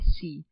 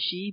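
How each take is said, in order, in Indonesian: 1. Suku kata ini diawali dengan bunyi 's'. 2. Suku kata ini diawali dengan bunyi 'sh'. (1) "bukannya si" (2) "Ianya disebut dengan shi"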